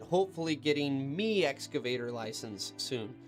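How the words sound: It is said in a Scottish accent.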